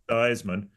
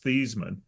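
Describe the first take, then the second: First: The name rhymes with Heisman. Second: The name does not rhyme with Heisman. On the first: This is the changed pronunciation. "he changed the pronunciation to Theismann" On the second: This is the original family pronunciation. "his real pronunciation of his name was Thiesman"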